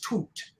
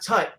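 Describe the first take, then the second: First: The vowel is long, as in 'boot'. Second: The vowel is short, as in 'cut'. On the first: The speaker calls it right. "Toot is how you pronounce it" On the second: The speaker calls it wrong. "it's not Tut"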